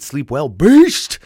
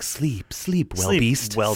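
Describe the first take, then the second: First: There is a pause after the word well. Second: There is a pause after the word sleep. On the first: Someone is wishing a beast a good sleep. "Or is it sleep well, comma, beast?" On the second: It is a beast that lives in a well. "is it sleep, comma, well beast?"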